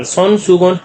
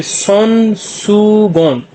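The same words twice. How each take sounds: First: Said in the usual way. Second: सोन सुगोन stretched slowly as son, soo, gon; syllable by syllable. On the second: Shown as a demonstration. Teacher introduces hand towel in Korean, syllable by syllable.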